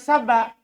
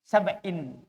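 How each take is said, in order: First: The word ends in a plain 'a' vowel. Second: The word ends in an '-in' sound. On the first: It is treated as the name of a person or place. "Dibaca sabak, A sarutnya. Ismullah dilansori" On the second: It is treated as an ordinary noun, not a name. "Tanwin kasroh"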